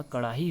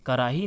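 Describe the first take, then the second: First: कड़ाही with retroflex flap; hard flap in कड़ाही; correct pronunciation. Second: कराही with plain R; straight-tongued R in कराही; incorrect pronunciation. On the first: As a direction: say कड़ाही with curled-tongue Ṛ. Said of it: "कड़ाही होता है". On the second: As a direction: say कराही as "karahi", tapped R. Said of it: "नहीं होता". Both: Shown as a demonstration.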